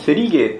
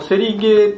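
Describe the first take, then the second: First: It has a regional Nagano-style pitch accent. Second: It has a standard Tokyo-style pitch accent. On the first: This is how a Nagano speaker says it. "長野アクセントというか" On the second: This is how most speakers say it. "セリゲーって我々言うじゃないですか"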